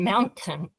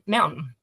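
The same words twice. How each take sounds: First: The t sound in the middle is clearly pronounced. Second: The t sound in the middle is swallowed. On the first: "Instead of saying mountain" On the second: "we swallow our consonants"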